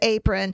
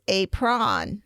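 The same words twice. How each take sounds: First: The last syllable has a weak, reduced vowel. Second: The last syllable has a full, clear vowel. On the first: This is how the word sounds in everyday speech. "in running speech is apron" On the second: This helps with spelling the word. "when you spell it, it's apron"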